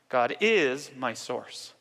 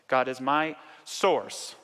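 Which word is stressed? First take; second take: is; source. First: The word is carries the emphasis. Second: The word source carries the emphasis.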